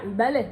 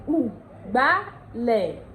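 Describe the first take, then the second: First: It is said in standard Yoruba, starting with i. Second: It is said in Ondo dialect, starting with u.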